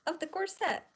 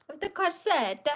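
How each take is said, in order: First: Said in the usual way. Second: "corset" opened wide, crisp T at the end; corset with a broad AR and a clear final T. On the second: Shown as a demonstration. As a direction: say "corset" as KAR-set, the T sounded.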